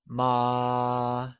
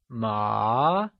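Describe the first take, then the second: First: The pitch stays high and level. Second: The pitch rises from mid to high. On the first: It means mother. "is said with a constant high-level tone" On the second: It means hemp. "carries the second or the mid-rising tone"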